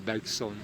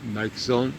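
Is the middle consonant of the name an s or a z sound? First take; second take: s; z. First: The middle consonant is a hissing s sound. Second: The middle consonant is a buzzing z sound. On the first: The speaker calls it wrong. "et non pas Bergson" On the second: The speaker calls it right. "de le prononcer comme Bergson"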